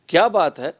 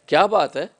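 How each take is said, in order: First: It is said as a question. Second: The same.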